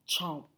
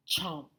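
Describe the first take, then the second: No difference in how they are said.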